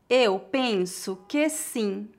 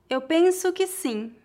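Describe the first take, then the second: First: The sentence is spoken slowly and carefully. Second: The sentence is spoken at a natural pace. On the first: "Uma vez mais devagar" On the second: "outra vez mais naturalmente"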